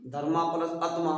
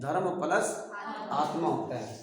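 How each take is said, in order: First: धर्मा said with a long final आ, धर्मा plus; teacher demoing the mistaken धर्मा with a long आ; wrong split. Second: धर्म said short, ending on म, then plus आत्मा; teacher giving the correct धर्म with a short ending; correct split. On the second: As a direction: clip धर्म with no vowel after म. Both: Shown as a demonstration. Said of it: "गलत नहीं लग रहा अपने आप में?".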